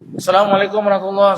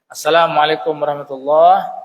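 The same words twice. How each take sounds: First: It is said quickly, run into the next. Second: It is said slowly, followed by a pause.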